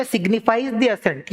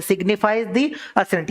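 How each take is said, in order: First: Signifies the assent spelled out very slowly, word by word; slow key phrase. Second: Signifies the assent repeated very slowly, each word apart; slow key phrase. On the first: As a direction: hammer home the keyword signifies the assent. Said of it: "ये important है". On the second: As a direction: make them memorise signifies the assent. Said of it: "ये याद रखना". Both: Shown as a demonstration.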